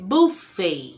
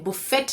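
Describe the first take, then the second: First: No t sound is pronounced at the end. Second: A t sound is pronounced at the end. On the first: The speaker calls it right. "यहाँ पे टी silent है" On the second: The speaker calls it wrong. "ये बुफेट नहीं है"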